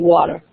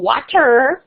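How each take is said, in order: First: The final 'er' sound is light and reduced. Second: The final 'er' sound is strong and drawn out. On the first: The speaker calls it right. "we say water" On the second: The speaker calls it wrong. "We don't go water"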